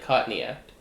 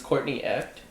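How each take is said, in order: First: It is said in an Australian accent. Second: It is said in a neutral accent.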